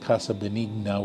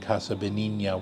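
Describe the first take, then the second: First: The name is said with a Spanish pronunciation. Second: The name is said with an Italian pronunciation. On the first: "which is a Spanish pronunciation" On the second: "which would be an Italian pronunciation"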